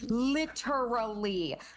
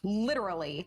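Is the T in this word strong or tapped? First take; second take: strong; tapped. First: The T is pronounced strongly and with emphasis. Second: The T is a quick tap, like a D. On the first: "you're putting emphasis on that T" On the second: "a quick tongue tap and you get that duh sound"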